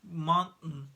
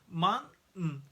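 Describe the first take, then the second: First: The t is a glottal stop. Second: The t is a glottal stop.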